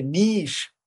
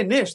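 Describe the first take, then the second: First: "Nish" drawn out as neesh; long-vowel mispronunciation. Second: NISH with a short i, as in fish; short-vowel pronunciation. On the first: Retold or imitated. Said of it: "they would say Nish". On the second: Shown as a demonstration. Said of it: "when I would say Nish".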